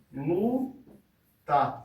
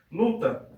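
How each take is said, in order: First: "luta" as two slow beats, LU, pause, TA; split into syllables. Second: Said in the usual way. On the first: Shown as a demonstration. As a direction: break luta into separate syllables. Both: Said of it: "a gente vai separar".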